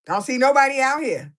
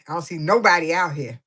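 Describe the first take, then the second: First: Higher and louder, calling out to nobody; a louder, higher mock complaint. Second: Said in the usual way. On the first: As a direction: call it out across an empty beach. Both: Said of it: "She like".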